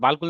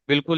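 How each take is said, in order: First: The first vowel is a long 'aa'. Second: The first vowel is a short 'i'. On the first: The speaker calls it wrong. "बालकुल नहीं पढ़िएगा भाई" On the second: The speaker calls it right. "बिल्कुल ही पढ़िएगा"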